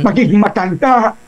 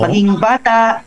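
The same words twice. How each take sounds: First: High, put-on old person voice; character voice of someone elderly. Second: High-pitched little kid impression; put-on kiddie voice; child voice. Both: Shown as a demonstration.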